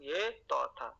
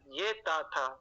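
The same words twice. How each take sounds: First: تو as emphatic Arabic "taw"; heavy t letter. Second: تا with a plain, thin t and "aa"; light t letter. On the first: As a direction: say تو with a heavy t and rounded "aw". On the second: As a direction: say تا lightly, as "taa". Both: Shown as a demonstration. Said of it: "یہ تو تھا".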